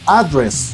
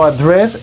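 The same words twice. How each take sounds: First: The stress is on the first syllable. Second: The stress is on the last syllable. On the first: A place where someone lives or works. "Address es una dirección" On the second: To speak about a specific topic. "es hablar de un tema en específico"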